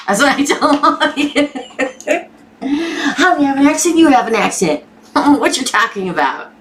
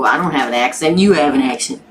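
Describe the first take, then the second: First: High-pitched, giggly retelling; laughing. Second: Said in the usual way. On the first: Real, not acted. Host retelling her comeback about having an accent, laughing. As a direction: crack up while repeating your own comeback.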